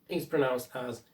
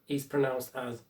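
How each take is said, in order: No difference in how they are said.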